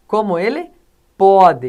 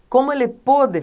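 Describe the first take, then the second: First: "pode" set apart, loud, with open o; pause, then hit "pode" with a wide open o. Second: "pôde" with a closed o. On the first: Teacher contrasting the present tense, "pode" with open o. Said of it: "aqui é aberto". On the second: Teacher giving a past-tense example, "pôde" with closed o. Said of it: "aqui é fechado". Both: Shown as a demonstration.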